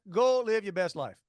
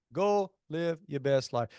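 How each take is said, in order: First: Said in the usual way. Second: Catchphrase drawn out word by word; slow down and space out each word; slow, deliberate repeat. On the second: Real, not acted. Catchphrase repeated slower and lower.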